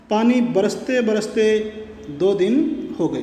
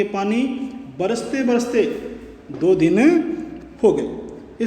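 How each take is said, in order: First: Said in the usual way. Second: बरसते बरसते said with light extra weight; repeated verb बरसते बरसते gently emphasised; stress on बरसते बरसते. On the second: Shown as a demonstration. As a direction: lean a little on बरसते बरसते. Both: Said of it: "इसको थोड़ा जोर देके बोलेंगे".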